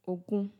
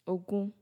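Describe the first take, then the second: Both takes have the same delivery.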